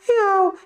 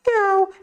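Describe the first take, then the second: Both takes have the same delivery.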